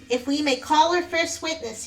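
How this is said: The voice sounds nasal.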